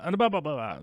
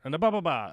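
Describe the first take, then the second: First: Higher mock blah. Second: Said in the usual way. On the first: Shown as a demonstration.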